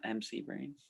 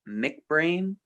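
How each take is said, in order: First: The first part is spelled out as letters. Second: The first part is said as one word. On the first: The speaker calls it wrong. "not M C Brain" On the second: The speaker calls it right. "It's actually Mick Brain"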